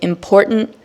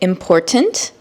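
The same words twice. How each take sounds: First: The middle t sound is swallowed in the throat. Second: The middle t sound is clearly pronounced. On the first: The speaker calls it wrong. "Don't say" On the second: The speaker calls it right. "Just continue to say"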